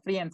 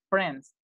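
First: The word has two vowel sounds, i then e. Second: The word has one vowel sound, only e. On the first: The speaker calls it wrong. "No friends" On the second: The speaker calls it right. "la I no suena"

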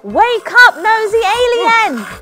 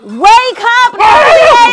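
First: It is shouted at a moderate loudness. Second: It is shouted at its very loudest.

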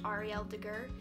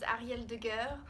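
First: The name is said with an American accent. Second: The name is said with a French accent. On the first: "or with an American accent" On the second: "if you couldn't tell by the way I pronounced my first name, I actually was born and raised in France"

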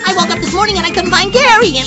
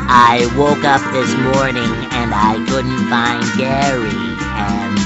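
First: It is said very fast. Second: It is said slowly.

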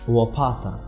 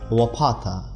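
First: The first sound is between L and V. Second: The first sound is a plain L. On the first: This is the Polish word. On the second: This is the Russian word.

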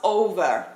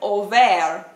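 First: The stress is on the first syllable. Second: The stress is on the second syllable. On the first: The speaker calls it right. "not over" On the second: The speaker calls it wrong. "Something like over"

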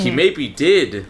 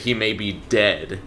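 First: The last word sounds like 'did'. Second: The last word sounds like 'dead'. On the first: "because the New Zealand accent, they say dead, but it's pronounced like did" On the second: "they're trying to say he may be dead"

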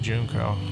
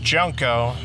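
First: The word is said with an accented vowel. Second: The word is said in a plain, standard way. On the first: This is how the speaker personally says it. "because of, I guess you would say an accent, I say Junco" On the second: This is how the name is normally said. "It's Junco"

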